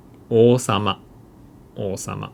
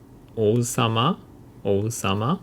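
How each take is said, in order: First: "おうさま" as oosama, no u heard; long o. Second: "おうさま" with the u clearly sounded; separate o-u. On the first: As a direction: hold the first vowel of "おうさま" as one long o. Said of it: "it becomes long O sound". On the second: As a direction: say "おうさま" as o-u-sama. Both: Shown as a demonstration.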